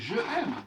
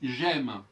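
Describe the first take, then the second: First: The e of je is pronounced before aime. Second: The e of je is dropped before aime. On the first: "c'est normalement c'est je aime" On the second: "si je dis j'aime"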